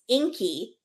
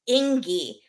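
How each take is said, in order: First: The middle consonant is a K sound. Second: The middle consonant is a G sound. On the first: The speaker calls it right. "the G is pronounced like a K" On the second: The speaker calls it wrong. "the sister starts calling him Ingy because it's spelled I N G I"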